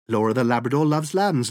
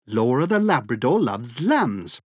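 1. La phrase est dite à un rythme très rapide. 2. La phrase est dite à un rythme rapide. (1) "Encore plus vite!" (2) "plus vite!"

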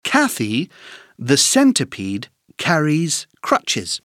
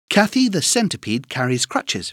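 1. Elle est dite à un rythme lent et soigné. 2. Elle est dite à un rythme plus rapide.

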